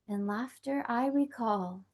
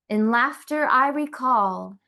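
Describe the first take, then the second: First: It is said in a softer voice. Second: It is said aloud at full voice.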